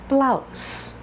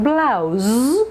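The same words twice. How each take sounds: First: The final sound is a hissing S. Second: The final sound is a buzzing Z. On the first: The speaker calls it right. "No buzz" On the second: The speaker calls it wrong. "Not blouse"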